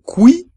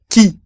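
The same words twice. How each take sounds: First: Qui said kwi with a w; the mistake, qui as kwi; wrong pronunciation. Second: Qui said ki, no w, up high; right way, qui as ki; correct French. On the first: Teacher showing students the wrong qui. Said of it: "no hay que decir qui". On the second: Teacher showing students the right qui. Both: Shown as a demonstration.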